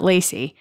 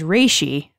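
First: The name begins with an L sound. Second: The name begins with an R-like sound. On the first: This is how the name is said in English. "not Lacey" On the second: This is how the name comes out in Japanese. "they don't have any L sounds. So my name was Reishi"

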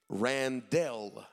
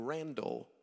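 First: The last syllable sounds like 'dell'. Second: The last syllable sounds like 'dull'. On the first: The speaker calls it right. "my first name properly, is Randell" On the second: The speaker calls it wrong. "everybody mispronounced my name and would call me Randall"

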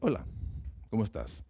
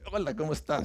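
First: The greeting sounds cold and distant. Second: The greeting sounds warm and friendly.

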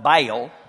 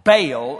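First: The word is said in a Texan accent. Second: The word is said in a standard accent. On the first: This is how people from Texas say it. "unless you're from Texas and then you call it Baal" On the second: This is how most people say it. "most people call it Baal"

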